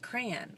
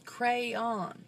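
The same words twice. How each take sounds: First: It is said as one syllable, like cran. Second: It is said as two syllables, cray-on. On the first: "some people pronounce it crayon, like C R A N" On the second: "It's crayon. Cray, it's spelled crayon"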